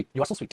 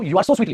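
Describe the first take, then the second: First: "you are so sweet" dropped much softer as the correct form; soft correction. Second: "You are so sweetly" said at full voice as the wrong example, "sweetly" clear; mock the error "You are so sweetly" aloud; wrong version. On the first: Teacher softly correcting the student's sentence. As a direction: quietly give the right "you are so sweet". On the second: Teacher voicing a student's mistake to the class, at full voice. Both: Shown as a demonstration. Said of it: "लेकिन अगर मैं बोल दूं".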